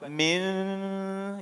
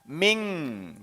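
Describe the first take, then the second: First: The word ends in a plain n sound. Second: The word ends in a nasal ng sound. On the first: The speaker calls it wrong. "jadi bukan min" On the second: The speaker calls it right. "jelas ada hausum ya, dengan sengau di sini"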